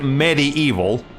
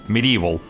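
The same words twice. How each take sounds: First: The word ends sounding like the word evil. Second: The word is said with its usual ending. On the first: This is the invented name of the game. "not the word they made up for the game" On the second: This is the real English word. "the actual word"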